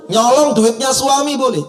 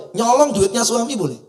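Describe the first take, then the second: First: Higher and louder, a firm statement ending down on boleh; ruling delivered with a punch; emphatic verdict. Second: A teasing, questioning rise on boleh; mock-scandalized question; rhetorical question. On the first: Acted. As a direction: declare it as settled law. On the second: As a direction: ask it as if daring the crowd to say no.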